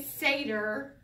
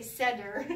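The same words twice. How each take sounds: First: "Seder" said SAY-der, drawn out; the listeners' "Seder". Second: "Seder" said SED-er; the speaker's "Seder". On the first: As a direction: stretch a long "ay" in "Seder". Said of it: "you say Seder". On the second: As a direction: use a short e, as in "bed", in "Seder". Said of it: "I say Seder". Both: Shown as a demonstration.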